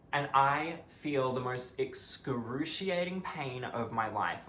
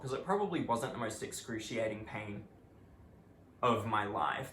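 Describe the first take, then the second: First: Slow, drawn-out "excruciating pain", each word weighted for effect; dramatic emphasis. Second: Said in the usual way. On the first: Real, not acted. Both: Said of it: "take that with a grain of salt".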